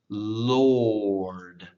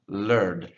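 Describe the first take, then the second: First: The vowel is rounded, like an 'or' sound. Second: The vowel is unrounded, like an 'er' sound. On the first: The speaker calls it right. "round your mouth when you say it" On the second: The speaker calls it wrong. "They kind of pronounce it like an E"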